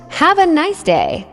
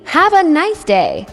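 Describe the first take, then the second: No difference in how they are said.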